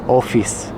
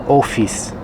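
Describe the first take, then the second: The two takes are said the same way.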